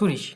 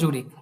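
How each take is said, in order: First: The name is said with German pronunciation. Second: The name is said with English pronunciation. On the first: "but ডয়েচে হচ্ছে সুরিশ" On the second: "ওটা ইংলিশে হচ্ছে জুরিক"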